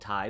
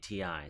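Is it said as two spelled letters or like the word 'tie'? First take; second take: tie; letters. First: It sounds like the word 'tie'. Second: It is said as two separate letters. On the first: The speaker calls it wrong. "that's how titanium begins in sound" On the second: The speaker calls it right. "he told me it's definitively Ti"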